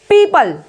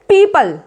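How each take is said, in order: First: The first syllable sounds like 'pee'. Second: The first syllable sounds like 'pee'.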